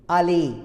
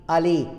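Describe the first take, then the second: The two takes are said the same way.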